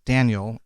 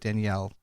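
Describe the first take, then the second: First: The name is said with an English pronunciation. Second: The name is said with a Portuguese pronunciation. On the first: "it's Daniel in English" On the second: "they pronounce it Danielle in Portuguese"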